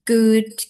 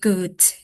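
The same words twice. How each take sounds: First: The word ends with a voiced D sound. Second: The word ends with a voiceless T sound. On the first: The speaker calls it right. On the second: The speaker calls it wrong.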